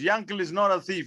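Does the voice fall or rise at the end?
falls. The voice falls at the end, as a statement. It asserts that he is not a thief.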